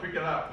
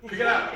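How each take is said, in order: First: Said in the usual way. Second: Louder, higher command: Pick it up; the nagging conscience pushing hard, loud and high; insistent inner voice. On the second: Retold or imitated. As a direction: bark the order to pick it up.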